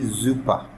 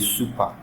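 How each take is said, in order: First: The word begins with a buzzing Z sound. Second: The word begins with a hissing S sound. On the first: The speaker calls it right. "You say super" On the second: The speaker calls it wrong. "you don't say super"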